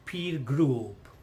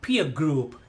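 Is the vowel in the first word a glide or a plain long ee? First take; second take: plain ee; glide. First: The vowel is a plain long ee sound. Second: The vowel glides from ee toward uh. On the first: The speaker calls it wrong. "నాట్" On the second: The speaker calls it right.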